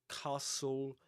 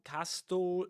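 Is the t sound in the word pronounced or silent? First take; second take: silent; pronounced. First: The t sound is silent. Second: The t sound is clearly pronounced. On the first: The speaker calls it right. "You say ... castle" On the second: The speaker calls it wrong. "no castle"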